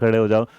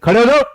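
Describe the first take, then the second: First: The command is said in a soft, gentle voice. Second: The command is said in an angry, harsh voice. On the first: The listener is being asked kindly. "प्यार से बोला" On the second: The listener is being scolded. "तुम डर गए होगे"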